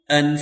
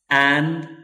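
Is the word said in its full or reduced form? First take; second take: reduced; full. First: The word is said reduced with a weak vowel. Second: The word is said fully with a clear vowel. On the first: This form is for fast speech. "for the weak" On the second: This form is for slow, careful speech. "for the strong"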